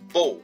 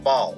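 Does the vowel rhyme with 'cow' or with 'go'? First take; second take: go; cow. First: The vowel rhymes with 'go'. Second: The vowel rhymes with 'cow'. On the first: It means a knot or an archer's bow. "A type of नॉट" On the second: It means to bend forward. "इसका एक pronunciation या उच्चारण होता है बाओ"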